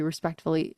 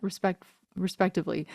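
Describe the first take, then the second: First: Respectively slurred as respect-fully; respectively mumbled like respect-fully, the middle syllable blurred; respectively swallowed to respect-fully; garbled word. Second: Respectively restarted, then spelled out syllable by syllable; respectively said again with every syllable clear; careful repeat. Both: Real, not acted. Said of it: "Sorry, what?".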